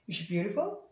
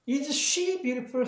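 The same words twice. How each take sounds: First: The s of is merges into she. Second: The s of is is pronounced separately. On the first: The speaker calls it right. "이렇게 훅 지나가는 것처럼 들려요" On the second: The speaker calls it wrong. "하는 게 아니라"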